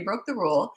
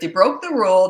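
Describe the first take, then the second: First: It is said in a calm, even tone. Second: It is said in a harsh, scolding tone. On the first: The parent is steady and simply following the rules. The speaker calls it right. "You say, okay" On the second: The parent is angry and blaming the child. The speaker calls it wrong. "A calm leader wouldn't talk like that"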